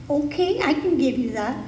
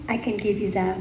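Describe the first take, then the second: First: The universe saying yes, pitch jumping up on okay; the universe answering. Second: The universe granting abundance, lower and softer; a soft, lower reply from the universe; the universe, gently. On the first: The universe replying to a listener who wants lack, lightly voiced. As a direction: answer as a generous universe, rising and open. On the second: The universe promising abundance to the congregation, lower and softer. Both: Acted. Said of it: "the universe always says yes".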